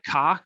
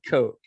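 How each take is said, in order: First: The vowel is short, rhyming with rock. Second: The vowel is long, rhyming with smoke. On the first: This is how the spelling suggests it is said. The speaker calls it wrong. "K O C H is spelled like cock" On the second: This is how the family themselves say it. The speaker calls it right. "they pronounce it Coke"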